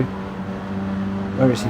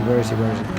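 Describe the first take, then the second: First: Whispered to himself. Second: Said in the usual way. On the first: Real, not acted. Searching for teammate.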